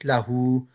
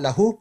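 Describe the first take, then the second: First: The final vowel is held long. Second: The final vowel is short. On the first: The speaker calls it right. "it's lahu" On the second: The speaker calls it wrong. "It's not lahu"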